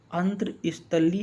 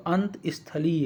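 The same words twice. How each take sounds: First: अंतस्थली as "antr-isthali"; mispronounced word. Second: अंतस्थलीय as "ant-isthali", no r; corrected pronunciation. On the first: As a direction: put an r after ant in अंतस्थली. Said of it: "इस तरह से नहीं होगा". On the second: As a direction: split अंतस्थलीय after ant without any r. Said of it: "ये आपका कैसे होगा". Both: Shown as a demonstration.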